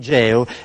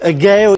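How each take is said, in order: First: The word starts with a soft G sound. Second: The word starts with a hard G sound. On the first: It follows normal Italian pronunciation. The speaker calls it right. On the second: It is said in a Greek or German way. The speaker calls it wrong.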